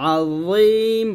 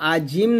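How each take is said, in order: First: The middle consonant is a z-like sound. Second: The middle consonant is a plain j sound. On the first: The speaker calls it right. "এটা আযীম বলতে হবে, জিহ্বার আগা উপরে" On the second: The speaker calls it wrong. "আজিম না"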